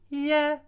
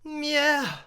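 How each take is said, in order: First: The word is plain and clipped with no breath. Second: The word is said with breath in it. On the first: The speaker calls it wrong. "just stopping the line" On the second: The speaker calls it right. "having that breath in there"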